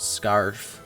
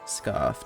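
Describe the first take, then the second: First: The R sound is hard and strong. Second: The R sound is soft and weak. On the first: The speaker calls it wrong. "not a hard R" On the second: The speaker calls it right. "It's a soft R"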